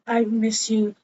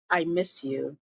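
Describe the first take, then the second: First: Said in the usual way. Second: Much softer, lower tender plea; husband softly pleading to his wife. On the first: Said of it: "So he was like". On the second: Retold or imitated. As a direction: breathe it to her longingly. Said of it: "he was like".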